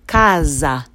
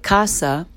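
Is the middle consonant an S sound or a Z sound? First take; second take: Z sound; S sound. First: The middle consonant is a buzzing Z sound. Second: The middle consonant is a hissing S sound. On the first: The speaker calls it right. "in Italian is pronounced casa, because the S is surrounded by vowels" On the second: The speaker calls it wrong. "even though to you it might look like casa"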